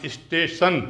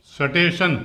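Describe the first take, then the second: First: 'is-tay-shan', the Hindi speaker's स्टेशन; everyday Hindi pronunciation. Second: स्टेशन opened with a full 'sa', no i before it; full 'sa' sound. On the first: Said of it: "हम लोग क्या बोलते हैं हिंदी में". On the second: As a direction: say स्टेशन wrongly as 'sa-tay-shan'. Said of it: "अगर मैं सा बना के लिखूँगा तो क्या आएगा?". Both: Shown as a demonstration.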